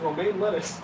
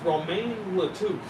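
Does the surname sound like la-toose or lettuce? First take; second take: lettuce; la-toose. First: The surname is said like lettuce. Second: The surname is said as la-toose. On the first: The speaker calls it right. "that's how it was supposed to be said" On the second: The speaker calls it wrong. "I pronounced it wrong the entire game"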